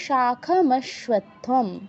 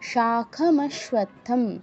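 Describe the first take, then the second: Both takes have the same delivery.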